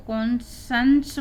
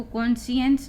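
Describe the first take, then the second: First: "कॉन्शंस" in two syllables, kon-shuns; correct pronunciation. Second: "कॉन्शियंस" with an extra vowel, kon-si-ens; wrong pronunciation. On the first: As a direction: run the ending of "कॉन्शंस" together as one syllable, shuns. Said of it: "इसको कॉन्शंस पढ़ेंगे". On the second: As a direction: split the ending of "कॉन्शियंस" into two syllables, si-ens. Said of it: "कॉन्शियंस नहीं पढ़ेंगे". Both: Shown as a demonstration.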